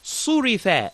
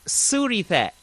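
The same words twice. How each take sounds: First: The first consonant is heavy and full-mouthed. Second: The first consonant is light and thin. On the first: The speaker calls it right. "It's got to be full mouth" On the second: The speaker calls it wrong.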